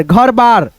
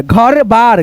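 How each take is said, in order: First: Said in the usual way. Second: घर बार slowly, as two separate pieces; slow beginner's reading of घर बार; split into parts. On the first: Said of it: "उसके बाद से बोल देते हैं". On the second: Shown as a demonstration. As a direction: draw out घर, then बार. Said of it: "दो भागों में डिवाइड करके".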